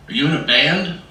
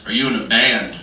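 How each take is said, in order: First: "Are you in a band?" rising on BAND, louder; imitated doctor's question with "band" pitched up; questioning rise. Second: "Are you in a band?" falling on BAND, louder; imitated doctor's question with "band" landing down; insistent repeat. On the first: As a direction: ask it openly, lifting "band" at the end. Retold doctor's first casual question. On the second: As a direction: repeat it firmly, letting "band" drop.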